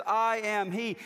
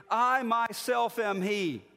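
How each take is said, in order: First: Said in the usual way. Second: Slow, with weight on "I myself"; emphatic. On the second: Shown as a demonstration. Pastor showing the emphatic Hebrew, stressing "I myself". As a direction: lean hard on "I myself", slowly. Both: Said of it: "it's emphatic in the Hebrew".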